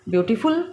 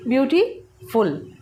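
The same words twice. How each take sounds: First: Said in the usual way. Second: "beautiful" slowly in two parts, "beauty", pause, "फुल"; split into syllables. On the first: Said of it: "बोलते तो एक साथ हैं". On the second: Shown as a demonstration. Teacher showing students the syllables, "beautiful" split before "फुल". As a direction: break "beautiful" with a clear gap before "फुल". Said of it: "इसको बोल करके देखिए".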